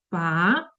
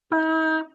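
First: The pitch rises toward the end. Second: The pitch stays high and level. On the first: "Другий тон, коли ми нібито запитуємо" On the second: "перший тон. Він іде зверху"

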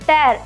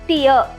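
First: The word rhymes with 'air'. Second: The word rhymes with 'ear'. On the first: It means to rip apart. "ಟೇರ್ ಅಂತ ಹೇಳಿದ್ರೆ ಹರಿದಾಕೋದು ಅಂತ ಅರ್ಥ" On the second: It means a drop from the eye. "ಟಿಯರ್ ಅಂತ ಹೇಳಬೇಕು, ಅಂದರೆ ಕಣ್ಣೀರು ಅಂತ ಅರ್ಥ"

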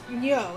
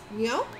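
First: The voice falls flatly like a plain statement. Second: The voice rises at the end like a question. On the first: The speaker calls it wrong. "It's not just Nyo" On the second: The speaker calls it right. "Why are you talking in the form of a question? It's their name"

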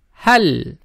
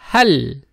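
No difference in how they are said.

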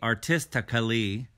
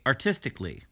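First: The word is said with a full 'al' syllable before the ending. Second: The word is said with no 'al' syllable before the ending. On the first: The speaker calls it wrong. "We don't say artistically" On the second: The speaker calls it right. "we say artistically"

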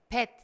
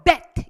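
First: The first consonant is soft, like Korean ㅂ. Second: The first consonant bursts out strongly with force. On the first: The speaker calls it wrong. "이게 아니에요. 한국말 같아요. 비읍으로 발음을 했기 때문에" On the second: The speaker calls it right. "브 하고 나오는 느낌으로 bet 이렇게 좀 세게"

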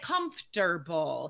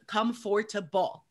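First: The middle syllable is dropped from the word. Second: Every syllable, including the middle one, is pronounced. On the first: The speaker calls it right. "That middle syllable just disappears. We say comfortable" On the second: The speaker calls it wrong. "nobody says comfortable"

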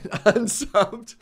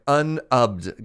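First: The S sound is pronounced in the word. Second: The S sound is dropped from the word. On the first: The speaker calls it wrong. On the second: The speaker calls it right.

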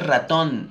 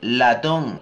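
First: The word begins with an R sound. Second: The word begins with an L sound. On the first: The speaker calls it wrong. "no se dice ratón" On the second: The speaker calls it right. "se dice latón"

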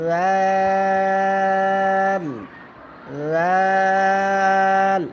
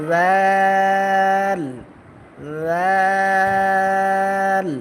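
The two takes are said the same way.

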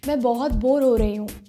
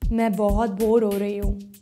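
First: It is said at a medium pitch. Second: It is said at a low pitch.

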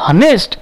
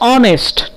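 First: The word begins with an audible h sound. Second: The word begins directly with a vowel sound. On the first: The speaker calls it wrong. "Will you pronounce as honest? No, it's wrong" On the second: The speaker calls it right. "Its pronunciation is honest"

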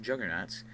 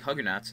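First: The word begins with a J sound. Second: The word begins with an H sound. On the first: It is said the usual English way. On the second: It is said the Spanish way.

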